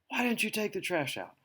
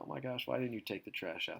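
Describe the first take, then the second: First: It sounds furious, lashing out angrily. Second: It sounds mildly annoyed, not very upset.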